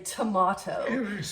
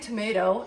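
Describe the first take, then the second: First: Tomato is said with a British-sounding vowel. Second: Tomato is said with a North American vowel. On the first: It sounds posh for this speaker. "really poncy for me to say tomato" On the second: It is the speaker's everyday way. "I say tomato"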